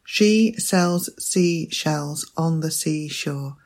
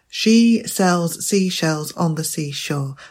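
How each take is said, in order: First: It is said at a slower pace. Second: It is said at a quicker pace.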